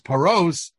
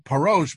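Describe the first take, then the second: First: The word ends with an s sound. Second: The word ends with an sh sound. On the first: It means to spread out or give out. "paros is spelled with a sin" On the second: It means to clarify or explain. "if you read it with a shin"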